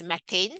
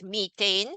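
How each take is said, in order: First: The word is said in an American way. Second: The word is said in a non-American way. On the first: "the uh, Americans pronounce it as methane" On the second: "some people pronounce as methane"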